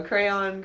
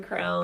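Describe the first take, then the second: First: Crayon said as kray-on, two syllables. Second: Crown said as one syllable, like a king's crown; crayon said as crown. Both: Shown as a demonstration. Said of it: "I don't know".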